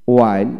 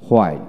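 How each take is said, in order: First: ওয়াইল starting on w, no h; ওয়াইল with a plain w onset; British w pronunciation. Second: হোয়াইল with an audible h first; হোয়াইল starting on breathed hw; American h pronunciation. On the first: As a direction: drop the h in ওয়াইল. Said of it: "British উচ্চারণে". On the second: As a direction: sound the h in হোয়াইল. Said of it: "আমেরিকানে হ". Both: Shown as a demonstration.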